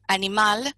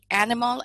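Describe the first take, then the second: First: The word is said with Spanish pronunciation. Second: The word is said with English pronunciation. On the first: "la palabra animal" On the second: "animal en inglés"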